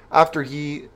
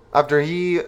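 Both takes have the same delivery.

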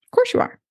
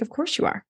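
First: Squealed way up high, near tears of joy; overjoyed squeal. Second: Said in the usual way. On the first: Retold or imitated. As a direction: burst out in delighted, teary disbelief. Hearing the client got engaged.

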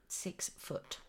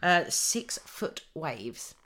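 First: Whispered "Six foot" as an awed aside; mock-impressed whispered "Six foot"; hushed aside. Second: Said in the usual way. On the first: Shown as a demonstration.

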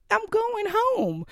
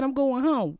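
First: "I'm going home" drawn out high and slow, each word firm; slow insistent repeat. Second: Said in the usual way. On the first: Retold or imitated. Telling her doctor again she's leaving, slow and insistent. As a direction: spell it out like he didn't hear.

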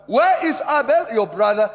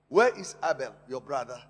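First: Preached scripture. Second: Said in the usual way. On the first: Shown as a demonstration. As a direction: proclaim it to the church. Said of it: "scripture preached loud". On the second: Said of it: "scripture retold plainly".

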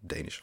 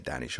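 First: Danish said with a long A, "DAY-nish"; second option, Danish starting like "day"; long A pronunciation. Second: Danish said with a short A, "DAN-ish"; first option, Danish rhyming with "mannish"; short A pronunciation. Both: Shown as a demonstration. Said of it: "I always forget what's like".

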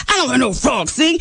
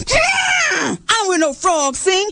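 First: Lightly voiced protesting lion; a plainer objection at usual pitch; objecting lion. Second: High, drawn-out elephant holler; indignant elephant. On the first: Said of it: "Then the lion jumped up". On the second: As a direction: cry out in protest, stretching it high. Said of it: "the elephant jumped up". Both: A narrator's reading.

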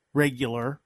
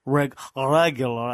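First: Said in the usual way. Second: Thick put-on Russian accent; Ivan impression. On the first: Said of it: "as Ivan would say". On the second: Redoing "regular" like the YouTuber, mock Russian accent. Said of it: "as Ivan would say on the YouTube?".

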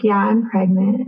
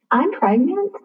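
First: Said in the usual way. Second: High, rising, unsure "I'm pregnant"; hesitant, questioning upward lilt; tentative confession. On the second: Retold or imitated. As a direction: break the news timidly, as if asking. Hesitantly breaking news to grieving mother-in-law.

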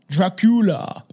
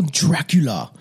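First: "Dracula" with a broad ah in the first syllable; hammed-up foreign-sounding "Dracula"; mock-foreign pronunciation. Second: Said in the usual way. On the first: Repeats name in put-on pronunciation.

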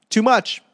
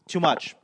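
First: Too much, yelled higher and louder; exasperated outburst. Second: Said in the usual way. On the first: Acted. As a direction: blurt out Too much like you've had it. Fed up with gym instructions.

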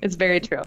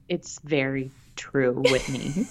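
First: Said in the usual way. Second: Low, drawn-out mock ASMR; slow right down for comic effect; teasingly slow and deep; playfully slow. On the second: Repeats it in slow ASMR joke.

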